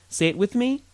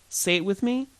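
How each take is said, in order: Both takes have the same delivery.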